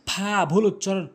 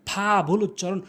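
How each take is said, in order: The two takes are said the same way.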